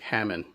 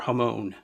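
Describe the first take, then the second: First: It sounds like the English name Hammond. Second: It is said in a more Japanese-sounding way. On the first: The speaker calls it wrong. "it wouldn't sound like Hammond" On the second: The speaker calls it right. "It's more Hamon"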